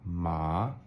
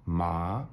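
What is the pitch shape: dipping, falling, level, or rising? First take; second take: rising; rising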